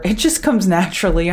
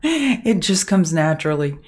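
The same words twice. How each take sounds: First: Said in the usual way. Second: Repeating it through a laugh. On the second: Shown as a demonstration. Streamer laughing at her own motherly nagging. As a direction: chuckle the words out, amused at herself. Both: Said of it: "I'm a mother".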